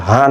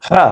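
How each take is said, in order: First: হা with an ordinary light h; wrong plain h. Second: হা with a tight Arabic pharyngeal h; correct throaty h. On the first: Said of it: "এটা কিন্তু হা না". (হা-র ভুল সাধারণ উচ্চারণ) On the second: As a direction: squeeze the h of হা in the throat. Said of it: "হা উচ্চারণটা ঠিক রাখবেন". (গলা থেকে সঠিক হা) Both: Shown as a demonstration.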